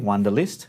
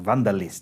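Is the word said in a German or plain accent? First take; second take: plain; German. First: It is said in the speaker's plain accent. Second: It is said with a German accent.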